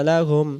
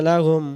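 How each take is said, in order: The two takes are said the same way.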